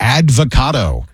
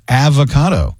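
First: "advocado" as AD-vo-CA-do, a D after the first A; avocado with added D. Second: "avocado" as AV-o-CA-do, no D before the V; avocado without the D. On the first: Host shows his speech quirk, advocado said with an added D. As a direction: say "advocado" with an extra D in it. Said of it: "I add extra syllables to word". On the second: Host corrects himself for co-host, avocado said without the D. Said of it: "There's no D in there". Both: Shown as a demonstration.

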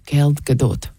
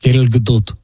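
First: "Gal Gadot" with a hard K-like G and guh-DOOT, Israeli accent. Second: "Gal Gadot" said kel guh-DOOLT, low, Israeli accent. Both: Shown as a demonstration. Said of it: "say it with an Israeli accent".

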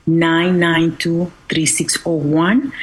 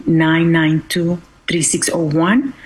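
The two takes are said the same way.

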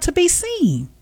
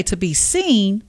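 First: "be" lifted high and leaned on in "to be seen"; "to be seen" with the weight and high pitch on "be"; stress on be. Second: Said in the usual way. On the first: Shown as a demonstration. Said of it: "I'm not gonna say to be seen". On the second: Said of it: "but to be seen".

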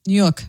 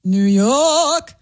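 First: Said in the usual way. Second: "New York" with a drawn-out New York "yawk"; New York accent. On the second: Shown as a demonstration. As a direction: stretch "York" slowly, pure New York. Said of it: "say, uh, New York".

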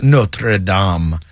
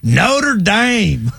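First: "Notre Dame" said the French way, a lower "NO-truh DAHM". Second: "Notre Dame" as a higher, drawn-out country "NOH-der DAYM"; countryfied Notre Dame. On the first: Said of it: "how they pronounced it". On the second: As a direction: twang "Notre Dame" hard, country style. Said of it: "we just countryfy it as hard as we can". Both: Retold or imitated.

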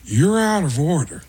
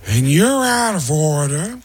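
First: Pacino voice, punch on out; higher Pacino take, hit out; Al Pacino impression. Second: Slow Pacino voice, weight on you're; Al Pacino impression. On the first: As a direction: Pacino courtroom bark, stress out. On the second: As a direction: drag it out, leaning on you're. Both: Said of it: "they cut to me as Al Pacino".

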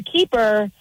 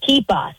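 First: Said in the usual way. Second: "Keepa" ending in an open A sound. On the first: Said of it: "it's like you're a keeper". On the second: Shown as a demonstration. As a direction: say "Keepa" with A for the final er. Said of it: "with an A at the end instead of".

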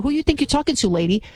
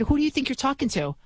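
First: Higher, pushier mock street-girl retort; imitating a social media girl getting in someone's face; mock sassy confrontation. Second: Said in the usual way. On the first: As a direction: ham up a sassy girl ready to slap. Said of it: "What if I was like, you know, Shaniqua". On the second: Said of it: "What if I said".

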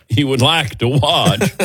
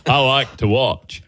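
First: Said in the usual way. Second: Slow, laughing half-hearted Forrest Gump voice. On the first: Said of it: "What am I, Forrest Gump". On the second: Retold or imitated. Host trips into a lightly done Forrest Gump impression. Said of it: "What am I, Forrest Gump here".

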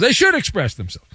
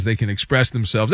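First: SHOULD punched higher; stress on SHOULD. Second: Said in the usual way. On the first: Retold or imitated. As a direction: lift the pitch to hammer home the word should. Correcting can to emphatic should.

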